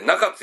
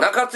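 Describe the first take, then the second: First: It is said with the local Osaka pitch accent. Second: It is said with a non-local pitch accent. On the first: The speaker calls it right. "中津やと" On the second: The speaker calls it wrong. "中津やなくて"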